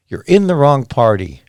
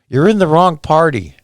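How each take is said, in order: First: Said in the usual way. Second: Louder, pitched up with stress on in; loud, stressed You're in the wrong party; emphatic. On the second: Real, not acted. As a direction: drive the point home.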